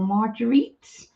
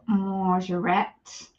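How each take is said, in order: First: Marguerite as "mar-juh-REET", drawn out and questioning; unsure pronunciation. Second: Marguerite as "mar-zhuh-RET"; unsure pronunciation. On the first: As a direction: say Marguerite with a hard j and "-eet", rising. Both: Real, not acted. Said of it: "my pronunciation is a bit rubbish".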